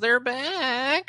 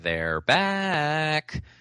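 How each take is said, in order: First: It is said in a whining voice. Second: It is said without whining, the parodied way.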